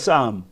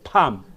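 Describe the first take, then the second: First: The word begins with an S sound. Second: The word begins with a P sound. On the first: The speaker calls it right. "읽을 때는 쌈이라고 읽어요. 피자 발음을 안 합니다" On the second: The speaker calls it wrong. "저 사람이 팜에 의하면 그랬습니다"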